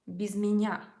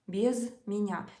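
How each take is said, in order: First: The two words run together as one word. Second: There is a clear gap between the two words. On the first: The speaker calls it right. "You should turn it into a single word" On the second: The speaker calls it wrong. "making this space too obvious"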